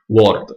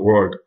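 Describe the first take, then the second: First: The word is said with an Italian accent. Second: The word is said with an English-like pronunciation. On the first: The speaker calls it wrong. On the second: The speaker calls it right.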